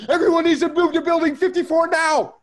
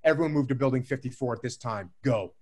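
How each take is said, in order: First: High, loud, frantic order over the radio; panicked radio call. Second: Steady, controlled, unhurried order; calm radio call. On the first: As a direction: bark it like you're losing it. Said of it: "You don't wanna sound like you're panicked". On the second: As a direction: sound like everything's under control. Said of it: "like I had everything under control". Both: Retold or imitated.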